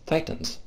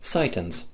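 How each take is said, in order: First: It is said in the speaker's normal accent. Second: It is said in a put-on Japanese accent.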